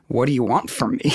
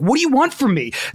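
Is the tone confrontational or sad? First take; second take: sad; confrontational. First: It is said in a quiet, sad tone. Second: It is said in an angry, confrontational tone.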